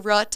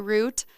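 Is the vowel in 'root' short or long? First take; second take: short; long. First: The vowel is short, like in put. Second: The vowel is long, like in boot. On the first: "I don't say rut" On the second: "I say root"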